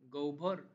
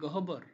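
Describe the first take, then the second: First: An o-like vowel is heard before bh. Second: The h is sounded before a plain b. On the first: The speaker calls it right. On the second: The speaker calls it wrong.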